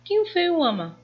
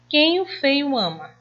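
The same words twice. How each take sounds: First: Much higher, playful repeat; teasing question. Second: Higher, hanging unfinished question; trailing off. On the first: Teacher playfully repeating the question to the class. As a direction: ask it again, way up high. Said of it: "Eu disse quem ele amava?". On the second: Teacher reading an unfinished sentence to pupils. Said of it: "indicamos que a frase está incompleta". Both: Shown as a demonstration.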